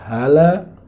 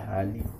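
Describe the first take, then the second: First: The word ends with the vowel a. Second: The word ends with the vowel i. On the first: "Tidak boleh dibaca hala" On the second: "tidak boleh dibaca hali"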